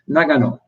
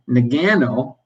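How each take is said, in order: First: It is said with a Japanese pronunciation. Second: It is said with an English pronunciation. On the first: "that's my attempt at a Japanese pronunciation" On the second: "He was saying Nagano"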